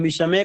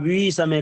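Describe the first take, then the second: First: The first vowel is short. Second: The first vowel is drawn out long. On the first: The speaker calls it right. "हम विषमे कह रहे हैं" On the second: The speaker calls it wrong. "आप वी समय कह रहे हैं"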